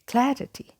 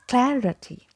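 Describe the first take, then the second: First: The first vowel sounds like in cat. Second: The first vowel sounds like in cat.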